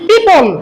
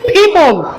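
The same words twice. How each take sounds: First: The first sound is a plain unaspirated p. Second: The first sound is a breathy aspirated p. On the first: The speaker calls it wrong. "এটাকে আমরা আগে জানছি কি পি" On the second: The speaker calls it right. "কিন্তু শুদ্ধ হবে কি পিপল"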